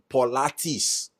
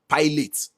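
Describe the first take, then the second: First: It is three syllables, ending in 'lah-teez'. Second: It is two syllables, ending in 'lot'. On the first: The speaker calls it right. "it is pronounced Pilates" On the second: The speaker calls it wrong. "I called it pilot based on the pronunciation P I L A T E S"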